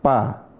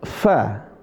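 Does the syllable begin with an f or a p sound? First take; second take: p; f. First: It begins with a p sound, lips pressed together. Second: It begins with a hissing f sound, teeth on lip. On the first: The speaker calls it wrong. "Kalau bibir atas ketemu bibir bawah, jadinya bacanya gimana?" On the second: The speaker calls it right. "Bukan pa, tapi fa"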